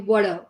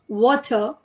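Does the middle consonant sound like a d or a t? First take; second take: d; t. First: The middle consonant sounds like a soft d. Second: The middle consonant is a clear t sound. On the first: "in American you should say water" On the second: "When it's come to British, you say you should say water"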